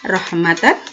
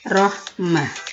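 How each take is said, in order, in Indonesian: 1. Kata ini diakhiri dengan bunyi n. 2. Kata ini diakhiri dengan bunyi h. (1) "kata rohmatan" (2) "ketika diwakofkan maka berubah menjadi rohmah"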